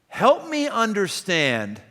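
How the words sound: The tone is blunt, hard and confrontational. The listener feels challenged and put on the defensive. The speaker calls it wrong. "Help me understand is going to be immediately putting me on my on my heels"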